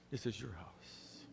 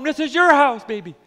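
First: "This is your house" soft, low and slow; tender father. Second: "This is your house" loud and high with passion; fervent father. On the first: Father tenderly reassuring son. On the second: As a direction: proclaim "This is your house" at full voice. Father welcoming son home. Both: Acted.

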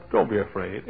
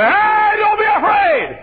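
First: Soft, low-key and soothing; calm reassurance. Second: Very high, loud, drawn-out yell; mock panicked shout. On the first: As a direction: quietly settle their nerves. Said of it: "but he said". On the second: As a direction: holler it like the wrong way to reassure. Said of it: "He didn't say". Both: Shown as a demonstration.

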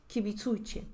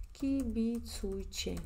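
First: Said in the usual way. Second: Very slow, syllables drawn out; dictado lento. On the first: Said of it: "Yo digo a vosotros o a ustedes". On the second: Shown as a demonstration. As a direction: stretch out kibitsuiche as if dictating it. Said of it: "voy a escribir para que veas". (kibitsuiche muy lento, sílaba por sílaba)

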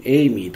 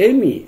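First: "エイミー" with an i-glide after the e; long ei pronunciation. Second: "エミ" with no i-glide after the e; short-e pronunciation. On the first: Teacher offering the other pronunciation, "エイミー" with long ei. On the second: Teacher unsure of a name's pronunciation, "エミ" with short e. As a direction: say "エミ" with a short, pure e. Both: Shown as a demonstration. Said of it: "どちらが正しい発音だかよくわかりません".

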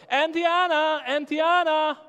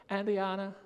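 First: Loud, high call across the yard; boy shouting for the neighbor. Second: Said in the usual way. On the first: Retold or imitated. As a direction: call her name from far away. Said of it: "And he shouts". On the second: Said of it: "he looks at her and he says".

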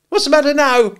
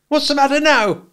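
First: Piercing high, loud, scolding sister; very sharp demand. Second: High, loud and sharp sister's voice; smart, sharp demand. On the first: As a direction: rap it out sharply at full voice. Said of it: "more sharply than before". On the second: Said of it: "she said smartly". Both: A narrator's reading.

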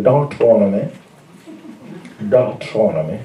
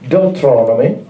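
First: Deuteronomy said as dak-tro-no-mee, lower and softer; preacher says Deuteronomy in his changed accent. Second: Said in the usual way. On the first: Shown as a demonstration. Preacher shows the congregation his accent, Deuteronomy with a changed accent. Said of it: "I'm starting to change my accent a little bit". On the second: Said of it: "I'm starting to change my accent".

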